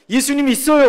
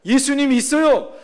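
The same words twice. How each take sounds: First: 있어요 lifted as a question, rising; 있어요 said with a questioning rise; questioning tune. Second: 있어요 settled with a falling tune; 있어요 said flat and falling, closing the matter; firm statement. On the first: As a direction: ask 예수님이 있어요 as if unsure. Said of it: "없어요?". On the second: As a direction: state 예수님이 있어요 as a plain fact. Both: Retold or imitated.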